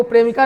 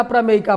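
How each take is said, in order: First: प्रेमिका with a long first "pre", then mi-ka; wrong reading. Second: प्रमेयिका as pra-mey-i-ka; correct reading. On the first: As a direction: show the misreading प्रेमिका, "pre-mi-ka", without "mey". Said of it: "प्रेमिका नहीं पढ़ना". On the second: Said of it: "प्रमेयिका पढ़ना है". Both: Shown as a demonstration.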